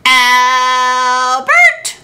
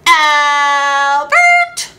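First: A loud call of Albert!; wife shouting for her husband; wife yells. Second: A loud sing-song Albert!; wife hollering for her husband; wife yells. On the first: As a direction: yell Albert! up the stairs. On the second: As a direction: call Albert! in a singing yell. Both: Acted. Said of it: "the farmer's wife yelled".

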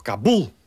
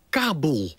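First: KaBUL, stressed on the final syllable; stress on last syllable. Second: KAbul, stressed on the first syllable; newsreader's KAbul, front-stressed. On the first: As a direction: say Kabul with the weight on BUL. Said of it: "maar het is toch Kabul". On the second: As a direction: say Kabul with the weight on KA. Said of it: "Zo hoor ik in de journaals". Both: Shown as a demonstration.

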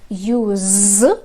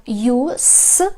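First: "use" drawn out with a buzzing z at the end; pronounced with z. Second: "use" ending in a voiceless hissed s; noun pronunciation. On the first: Teacher demonstrating the verb for learners, "use" with z. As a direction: finish "use" on a long voiced zzz. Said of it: "прочитаєте через з". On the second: Teacher demonstrating the noun for learners, "use" with s. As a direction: draw out "use" and finish on a clean sss. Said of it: "це означає іменник". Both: Shown as a demonstration.

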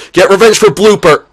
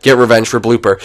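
First: High, loud battle cry; rallying shout. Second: Said in the usual way. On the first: Real, not acted. Gamer urging next batter on, rallying shout.

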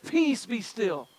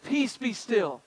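First: Said slowly, settling the storm; slow, measured peace be still; slow and calm command. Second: Said in the usual way. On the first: Shown as a demonstration. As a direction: let each word still the waves. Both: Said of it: "He said".

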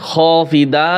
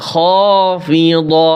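First: "خافضة" quickly with a thin d, "khofida"; wrong thin dad. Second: "خافضة" slow and drawn out, ending in heavy "do"; correct heavy dad. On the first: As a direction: say "خافضة" with dal instead of heavy dad. ("خافضة" ভুল করে পাতলা দা দিয়ে) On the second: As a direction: chant "خافضة" with long vowels and thick dad. ("خافضة" টেনে, মোটা দ্ব দিয়ে) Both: Shown as a demonstration. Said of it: "যেন না হয়".

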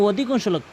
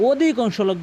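The two takes are said the same way.

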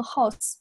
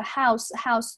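First: "house" with a narrowed, barely gliding vowel; wrong vowel demo. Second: "house" with a wide open ow diphthong; open mouth. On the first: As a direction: say "house" as a learner who doesn't open the mouth. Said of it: "不要读成house". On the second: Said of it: "嘴巴要张开". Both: Shown as a demonstration.

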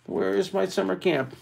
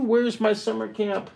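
First: "is" leaned on, falling; stress on is. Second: Said in the usual way. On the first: Shown as a demonstration. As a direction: hit the word "is" in the question.

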